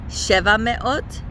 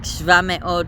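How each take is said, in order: First: The number keeps its full first vowel. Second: The number's first vowel is dropped. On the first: The speaker calls it right. "it is definitely supposed to be the full number" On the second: The speaker calls it wrong. "I sometimes get tempted to shorten the vowel"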